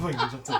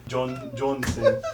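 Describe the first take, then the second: First: "Dwayne Johnson" slurred together through a laugh; mispronounced name. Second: "John Johnson", with Dwayne turned into John; demonstrated mispronunciation. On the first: Real, not acted. Botching a name as an ad-lib, "Dwayne Johnson" slurred with laughter. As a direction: let "Dwayne Johnson" blur, giggling. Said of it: "I can't even say his name correctly".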